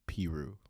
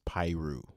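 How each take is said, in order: First: The first syllable sounds like 'peh'. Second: The first syllable sounds like 'pie'. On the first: The speaker calls it wrong. "not Peru" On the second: The speaker calls it right. "it's Pyru"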